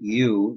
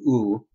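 First: The vowel glides from an ee sound into oo. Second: The vowel stays a steady pure oo sound. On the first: The speaker calls it wrong. "instead of U, that's like a diphthong with E and U" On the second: The speaker calls it right. "we just want to do U"

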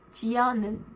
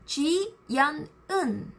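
First: The two words run together into one. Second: The two words are said separately, with effort. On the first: The speaker calls it right. "natural way" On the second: The speaker calls it wrong. "people don't speak like this, Jiyeon Eun, because it's difficult"

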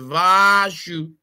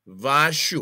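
First: The word is said with a raised pitch. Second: The word is said with a lower pitch. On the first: It refers to many eyes. "once you raise your voice and say Vashu" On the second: It refers to one eye. "One of them"

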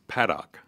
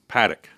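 First: The name is said in its full, unshortened form. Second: The name is said in a shortened, clipped form. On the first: The speaker calls it right. "But it's Paddock" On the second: The speaker calls it wrong. "we want to shorten everything ... the false assumption that it was Paddock"

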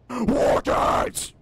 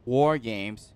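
First: It is shouted at very high volume. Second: It is said at normal, moderate volume. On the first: The speaker calls it right. "Lower the volume. ... That's how you say it" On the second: The speaker calls it wrong. "she pronounced it wrong. It's not War Games"

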